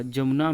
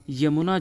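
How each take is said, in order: First: जमुना starting on J; J sound opening जमुना; incorrect pronunciation. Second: यमुना starting on Y; Y glide opening यमुना; correct pronunciation. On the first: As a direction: say जमुना as "jamuna". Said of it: "इसका यमुना जो है शुद्ध रूप". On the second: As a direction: say यमुना as "yamuna". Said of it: "यमुना जो है शुद्ध रूप". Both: Shown as a demonstration.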